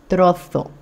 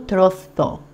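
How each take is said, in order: First: The z is pronounced as in Spain. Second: The z is pronounced as in Spain.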